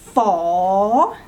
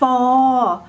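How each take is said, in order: First: The tone rises. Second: The tone stays level.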